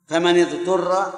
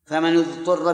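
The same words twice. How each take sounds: First: فمن اضطر with the nun of فمن said as "famani", kasra vowel before اضطر. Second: فمن اضطر with the nun of فمن said as "famanu", damma vowel before اضطر. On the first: Teacher demonstrating the kasra reading to students, nun voweled with i. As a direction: read فمن اضطر as "famani-dturr", an i-vowel joining the words. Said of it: "بالكسر". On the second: Teacher demonstrating the damma reading to students, nun voweled with u. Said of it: "بالضم". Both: Shown as a demonstration.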